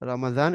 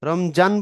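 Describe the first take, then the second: First: The middle consonant is a d-like sound. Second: The middle consonant is a j sound. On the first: The speaker calls it right. "এটা তো আরবিতে দাল দিয়ে লেখা" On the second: The speaker calls it wrong. "রমজান বললে ভুল"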